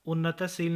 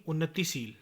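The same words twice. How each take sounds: First: उन्नतशील with a after t; mispronunciation. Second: Said in the usual way. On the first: Shown as a demonstration. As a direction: say unna-ta-sheel for उन्नतशील. (उन्नतशील, त पर अ) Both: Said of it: "नहीं".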